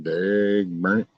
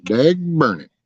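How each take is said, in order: First: "Dag burn it" dragged out slow, "burn" rising; a lazy drawn-out folksy oath; slow drawl. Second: "Dag burn it" with "Dag" jumping high; a quick higher folksy mock oath; high exclamation. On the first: Acted. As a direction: stretch every word of "Dag burn it" out slowly. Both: Mock cursing, said twice.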